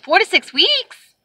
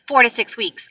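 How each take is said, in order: First: High, drawn-out rising question; incredulous echo. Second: Said in the usual way. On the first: Retold or imitated. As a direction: stretch it slowly upward in disbelief. Echoes agent in disbelief.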